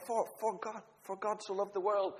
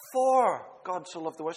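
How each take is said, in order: First: "for" lifted and lingered on before the rest of the verse; stress on FOR. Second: Said in the usual way. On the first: Shown as a demonstration. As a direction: lean on the word "for" to weigh its meaning. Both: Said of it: "and just emphasize one word".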